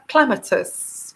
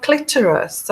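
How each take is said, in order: First: Clematis, said slowly and deliberately as KLEM-uh-tis; careful correction. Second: Clitoris, said by mistake for the flower name; slip of the tongue. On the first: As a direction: slowly correct it to clematis, stressing the first syllable. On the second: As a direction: blurt clitoris in place of clematis. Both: Real, not acted. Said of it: "sorry, clem-, clematis".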